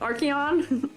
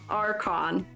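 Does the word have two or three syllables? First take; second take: three; two. First: The word is said with three syllables. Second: The word is said with two syllables. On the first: The speaker calls it wrong. "I'm pronouncing it Archeon" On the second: The speaker calls it right. "it's pronounced Archon"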